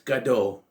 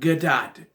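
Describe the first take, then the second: First: The final T sound is silent. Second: The final T sound is pronounced. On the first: The speaker calls it right. "The T is silent. It's Gadot" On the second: The speaker calls it wrong. "It's not Gadot"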